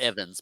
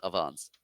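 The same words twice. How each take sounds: First: "Evans" the common way, EV-uhnz; pronounced EV-ans. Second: "Evans" as uh-VAHNS, stress at the end; pronounced uh-VONS. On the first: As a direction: stress the first syllable of "Evans", short e. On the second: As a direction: open ah in the last syllable of "Evans". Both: Shown as a demonstration. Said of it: "Not Evans, but Evans".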